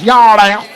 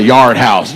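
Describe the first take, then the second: First: "Yard House" drawled, higher, endings swallowed; mimicked pronunciation. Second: Said in the usual way. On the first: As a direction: exaggerate her slurred "Yard House". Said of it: "That's not how you say that".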